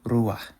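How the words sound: It ends in a soft emphatic h sound.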